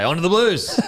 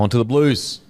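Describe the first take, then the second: First: It is said with lively, enthusiastic energy. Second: It is said flatly, without much energy. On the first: The speaker calls it right. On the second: The speaker calls it wrong.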